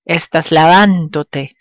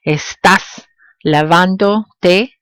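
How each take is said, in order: First: Estás lavándote joined up, weight on VÁN; original verb stress. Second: Estás lavándote slowly, piece by piece, te separate; pronoun held apart. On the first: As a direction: run estás lavándote together, falling at the end. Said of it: "maintain the original stress of the verb". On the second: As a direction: gaps in Estás lavándote, each piece rising. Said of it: "when pronouns are added to a verb form". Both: Shown as a demonstration.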